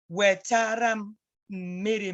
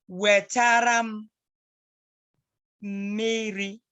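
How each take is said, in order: First: Said in the usual way. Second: Wetaram drawn out slowly, then miri; slow model. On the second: Shown as a demonstration. Teacher modelling Wetaram miri for the child.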